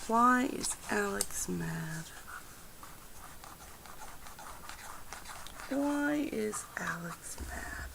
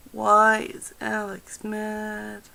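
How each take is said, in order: First: Soft whispered question to the cards. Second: Said in the usual way. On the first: Acted. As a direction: hush it like asking a secret. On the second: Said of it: "I will ask the cards".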